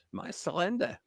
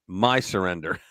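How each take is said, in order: First: Laughing. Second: Mock French accent with a nasal "surrender", said low; a jokey French accent on "My surrender" with a nasal vowel in "surrender". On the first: Real, not acted. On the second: Joking about how the French say it, mock French accent. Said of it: "I believe what they say in English is".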